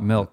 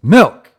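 First: The word is said calmly at normal volume. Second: The word is exclaimed loudly and forcefully. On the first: The speaker calls it wrong. "so it's not Milk" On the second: The speaker calls it right. "it's Milk!"

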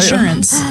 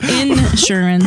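First: It has a short, unstressed first syllable. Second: It has a long, stressed first syllable, Southern-style.

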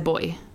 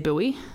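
First: The word is said the local way. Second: The word is said the American way. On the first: "We say boy" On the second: "in America they say buoy"

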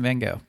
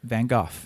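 First: The name is said with an American pronunciation. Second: The name is said with a British pronunciation. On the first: The speaker calls it wrong. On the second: The speaker calls it right.

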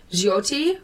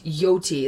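First: The name begins with a J sound. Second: The name begins with a Y sound. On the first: The speaker calls it right. "It's Jyoti" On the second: The speaker calls it wrong. "like if the J is silent"

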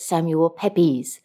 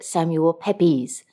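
First: The surname is said in the second pronunciation. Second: The surname is said in the second pronunciation.

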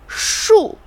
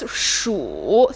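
First: The word is said with a different tone. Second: The word is said with the third tone. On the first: It means number. "means number" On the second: It means to count. "third tone means to count"

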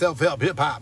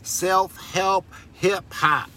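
First: The phrase is said quickly. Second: The phrase is said at a normal pace.

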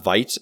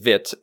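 First: The word is pronounced like an English word. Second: The word is pronounced like the French word. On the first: This is how the speaker personally used to say it. "which I used to pronounce Vite" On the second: This is how the creator says it should be said. "says it's Vite"

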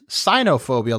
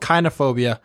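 First: The word begins with a soft S sound. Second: The word begins with a hard K sound. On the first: It sounds like the word for hatred of Chinese people. The speaker calls it wrong. "I originally pronounced it as cynophobia, like cyanide" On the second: It means fear of dogs. The speaker calls it right. "it's called kynophobia"

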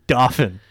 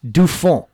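First: The word is pronounced the American way. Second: The word is pronounced the French way. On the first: "We're Americans, right? We say Dauphin" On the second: "Dauphin is the correct pronunciation of that"

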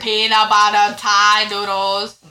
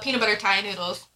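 First: It is said slowly. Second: It is said at normal speed.

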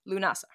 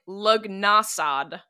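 First: It has no 'g' sound and ends in 'a'. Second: It has a 'g' sound and ends in 'd'. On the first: This is how the name is actually said. The speaker calls it right. "it's just pronounced Lunasa" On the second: This is how the spelling looks in English. The speaker calls it wrong. "phonetically in English, it looks like Lugnasad"

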